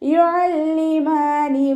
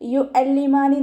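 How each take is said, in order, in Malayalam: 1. മധ്യത്തിലുള്ള ശബ്ദം മുറുകിയ തൊണ്ടയിലെ വ്യഞ്ജനമാണ്. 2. മധ്യത്തിലുള്ള ശബ്ദം ലളിതമായ ഗ്ലോട്ടൽ സ്റ്റോപ്പ് ആണ്. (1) "യു അതിൻ്റെ സൗണ്ട് തന്നെ കൊടുക്കാൻ ശ്രദ്ധിക്കണേ" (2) "യു അല്ലിമാനി നോതരുത്"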